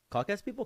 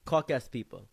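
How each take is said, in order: First: "Caucasian people?" echoed much higher with a rising end; incredulous echo. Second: Said in the usual way. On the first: Retold or imitated. Narrator echoes the friend's word "Caucasian people?", very high and rising.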